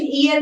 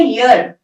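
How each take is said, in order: First: ईयर said as "ee-ar", opening on a long "ee"; wrong pronunciation shown. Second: ईयर said as "yurr", opening firmly on a "y" glide; correct pronunciation shown. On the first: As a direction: give ईयर the vowel start of the body part "ear". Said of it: "इसकी pronunciation ईयर नहीं होती". (ईयर का गलत उच्चारण, "ई" से शुरू) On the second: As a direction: hit a clear "y" at the start of ईयर. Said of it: "ये है ईयर". (ईयर का सही उच्चारण, "य" से शुरू) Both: Shown as a demonstration.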